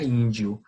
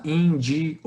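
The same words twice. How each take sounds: First: "índio" in two syllables, "dio" run together; pronúncia natural. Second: "índio" broken into three syllables, ín-di-o; pronúncia separada errada. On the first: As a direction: glide the "io" of "índio" into one syllable. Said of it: "a gente pronuncia índio". ("índio" em duas sílabas, com "dio" junto) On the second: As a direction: split the final "i" and "o" of "índio" apart. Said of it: "A gente não pronuncia assim". ("índio" separado em três sílabas, ín-di-o) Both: Shown as a demonstration.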